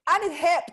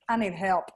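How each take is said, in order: First: High, playful little cry for help; mock plea for help. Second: Said in the usual way. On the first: Astrologer joking about her messy notes, mock high-pitched plea.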